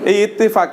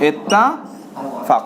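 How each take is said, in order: First: The vowel after the double t sounds like e. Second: The vowel after the double t sounds like a. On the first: This is the word as used in Bengali. "ইত্তেফাক মানে ওই যে ইত্তেফাক পত্রিকা যে আছে" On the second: This is the word as said in Arabic. "এটাকে আরবিতে শব্দটা হলো ইত্তাফাক"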